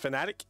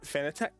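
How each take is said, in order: First: It is said like the word fanatic. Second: It is said unlike the word fanatic. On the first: The speaker calls it right. "it's supposed to be Fanatec, as in like I'm a fanatic" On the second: The speaker calls it wrong. "and not Fanatec"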